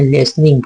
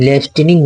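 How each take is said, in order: First: लिसनिंग said lis-ning, with the t silent. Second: लिसनिंग with the t sounded, lis-ten-ing; t pronounced. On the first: Teacher shows the right reading of लिसनिंग, t silent. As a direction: drop the t in लिसनिंग, say lisning. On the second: Teacher shows the wrong way to read लिसनिंग, t sounded. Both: Shown as a demonstration. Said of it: "यहाँ पर T silent होता है".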